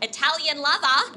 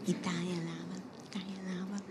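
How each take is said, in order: First: Loud, high Australian accent. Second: Soft, hushed Italian accent. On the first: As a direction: blare it in broad Australian accent. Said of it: "say it with my Australian accent". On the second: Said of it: "have to say it like that". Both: Shown as a demonstration.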